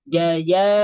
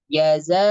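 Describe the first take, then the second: First: The middle consonant is a y sound. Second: The middle consonant is a buzzing z sound. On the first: The speaker calls it wrong. "Tapi bacanya daya ya daya bukan, tidak ada sifat sofirnya" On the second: The speaker calls it right. "harusnya harusnya kan kita membaca"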